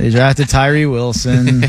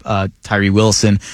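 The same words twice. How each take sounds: First: Slow droning deadpan through a laugh; monotone voice. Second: Said in the usual way. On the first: Pretend. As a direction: say it slow, flat, barely holding a laugh. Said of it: "in a monotone voice". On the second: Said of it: "No, I love what the Raiders did".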